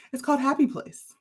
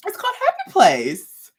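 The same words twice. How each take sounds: First: Said in the usual way. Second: Excited reveal. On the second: Real, not acted. Yarn line name, then repeated.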